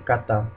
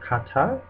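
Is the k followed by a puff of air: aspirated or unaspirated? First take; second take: unaspirated; aspirated. First: The k has no puff of air after it. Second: The k has a puff of air after it. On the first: The speaker calls it right. "but we say kata. So it's there's not like an aspiration after the k" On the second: The speaker calls it wrong. "we don't say kata"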